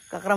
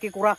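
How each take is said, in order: First: The first vowel sounds like 'a'. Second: The first vowel sounds like 'e'. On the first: The speaker calls it right. "আমি কাকৰা বুলি কও" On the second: The speaker calls it wrong. "না"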